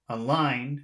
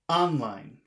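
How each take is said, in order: First: The stress is on the second syllable only. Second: The stress is on the first syllable only. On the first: "If you say just the second syllable" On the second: "if you say it just on the first word"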